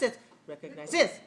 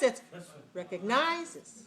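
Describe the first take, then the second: First: The stress is on the fourth syllable. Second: The stress is on the third syllable. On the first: "If it's like this" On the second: "If it's like this"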